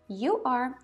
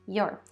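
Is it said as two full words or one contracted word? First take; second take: two words; contracted. First: Two separate full words are said. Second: One short contracted syllable is said.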